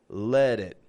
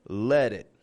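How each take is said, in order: The two takes are said the same way.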